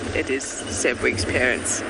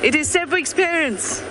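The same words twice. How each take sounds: First: It is said hesitantly, with uncertainty. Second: It is said firmly, with confidence. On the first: The speaker is not fully sure it is true. "that was hard for me to say because I can't be sure" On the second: The speaker commits to it being true. "I said it with more confidence"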